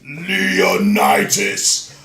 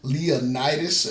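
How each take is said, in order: First: The name is said with a grand, dramatic accent. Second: The name is said plainly, without special accent.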